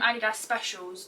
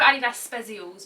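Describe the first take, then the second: First: The second word is said without a z sound. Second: The second word is said with a z sound. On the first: "people keep calling them" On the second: "because they've got a Z in them"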